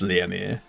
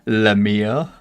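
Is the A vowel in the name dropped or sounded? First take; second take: sounded; dropped. First: The name is said with the A vowel. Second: The name is said without the A vowel. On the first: The speaker calls it right. "I assume it's Liamir" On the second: The speaker calls it wrong. "Most forget the A"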